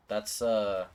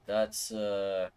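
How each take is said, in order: Both takes have the same delivery.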